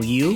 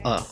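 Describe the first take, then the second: First: It is said like the letter's name. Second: It is said as a short vowel sound.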